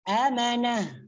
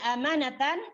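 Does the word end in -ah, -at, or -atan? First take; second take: -ah; -atan. First: The word ends with an h sound. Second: The word ends with a full -atan ending. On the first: The reading stops on this word. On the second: The reading continues without stopping.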